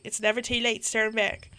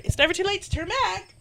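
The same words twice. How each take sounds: First: Said in the usual way. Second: High-pitched, reluctant hiker voice; timid player character. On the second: Acted. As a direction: pitch it up, wanting to back out. Redoes line in player character's voice.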